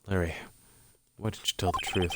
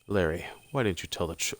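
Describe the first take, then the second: First: It is said in a put-on character voice. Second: It is said in the speaker's natural voice.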